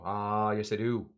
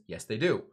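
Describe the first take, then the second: First: Lightly imitated teacher's accent, long opening "Ah"; Bob Heaps accent. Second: Said in the usual way. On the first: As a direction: answer yourself with a drawn-out "Ah". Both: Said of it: "He would do a little different".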